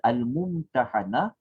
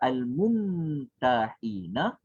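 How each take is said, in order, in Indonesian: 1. Vokal selepas h ialah 'a'. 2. Vokal selepas h ialah 'i'. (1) "ha tu dia berbaris di atas" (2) "ia akan merujuk kepada isim fa'il"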